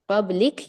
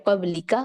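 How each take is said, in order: First: कबलिक ending on a bare क; कबलिक closed off on its last consonant; stopped ending. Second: कबलिका with a short आ after क; कबलिका ending on a brief का; flowing ending. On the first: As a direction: stop on the क of कबलिक with no vowel. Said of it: "अगर आप रवानी से पढ़ती हैं". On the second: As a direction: open the end of कबलिका into a short vowel. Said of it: "रवानी से पढ़ती हैं तो कबलिका". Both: Shown as a demonstration.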